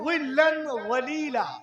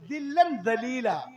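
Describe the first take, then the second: First: The words begin with a heavy z sound. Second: The first word begins with a d sound. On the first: They enter deep shade. The speaker calls it right. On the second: They enter disgrace. The speaker calls it wrong.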